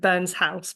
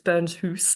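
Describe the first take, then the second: First: The name is said in an English accent. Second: The name is said in a Scottish accent. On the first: The speaker calls it wrong. "so I say in my English accent" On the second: The speaker calls it right. "but it's"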